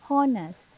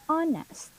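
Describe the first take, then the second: First: The word begins with an audible h sound. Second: The word begins with no h sound. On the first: The speaker calls it wrong. "misinterpret this one because there's H in this" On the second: The speaker calls it right. "it's somehow silent H"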